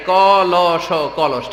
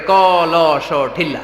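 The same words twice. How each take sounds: First: "ক ল স" letter by letter, then "কলস"; teacherly spelling ending in the whole word "কলস". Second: "ক ল স" letter by letter, landing on "ঠিল্লা"; mock lesson: separate letters, then "ঠিল্লা"; spelling, then dialect word. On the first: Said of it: "বাচ্চাদেরকে উচ্চারণ করে শিখাই". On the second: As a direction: spell "ক ল স" but read out "ঠিল্লা". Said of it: "এরা উচ্চারণ করে". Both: Shown as a demonstration.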